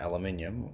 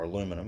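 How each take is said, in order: First: It is said the British way, five syllables. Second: It is said the North American way, four syllables.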